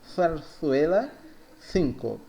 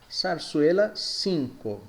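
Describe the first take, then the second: First: The z and c sound like th. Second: The z and c sound like s.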